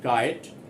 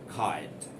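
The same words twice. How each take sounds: First: The K is plain, without a puff of air. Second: The K has a strong puff of air. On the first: The speaker calls it wrong. "do not pronounce it kite" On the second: The speaker calls it right. "pronounce it kite ... also sounds like K H"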